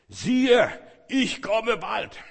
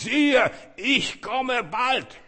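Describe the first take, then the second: First: It is spoken more loudly than normal. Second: It is shouted out at full volume. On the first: "er muss noch lauter lesen" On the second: "Und dann schreit er raus, ruft raus, posaunt raus"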